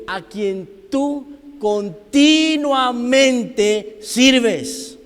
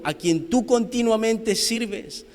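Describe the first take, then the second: First: "continuamente" drawn out syllable by syllable, high and loud; stress on CONTINUAMENTE. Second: Said in the usual way. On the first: Acted. Preacher stressing Daniel's devotion, "continuamente" very slow and loud. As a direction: stretch every syllable of "continuamente", punching it. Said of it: "porque Darío le dice". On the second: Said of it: "llamó a voces a Daniel".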